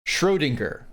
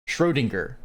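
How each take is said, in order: Both takes have the same delivery.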